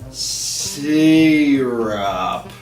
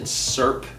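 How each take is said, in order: First: The word is said as two syllables. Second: The word is said as one syllable. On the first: "that also has two syllables" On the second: "I also pronounce it serp"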